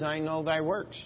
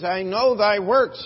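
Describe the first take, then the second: First: Said in the usual way. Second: Know pressed, loud and high in I know thy works; stress on know. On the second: Shown as a demonstration. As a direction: lean into know and let the line ring. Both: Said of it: "follow the emphasis here".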